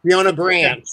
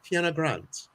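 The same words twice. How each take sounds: First: Loud, higher American pronunciation of the name; emphatic American-accented name. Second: Too-posh British rendering of the name; American's mock posh British; posh British accent. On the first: Real, not acted. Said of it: "look at that American accent coming through". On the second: Shown as a demonstration. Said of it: "a British accent, um, Sarah tells me I'm too posh".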